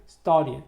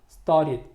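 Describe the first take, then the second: First: The middle t sound is hidden or dropped. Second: The middle t sound is hidden or dropped.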